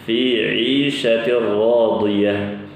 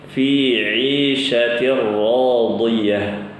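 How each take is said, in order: No difference in how they are said.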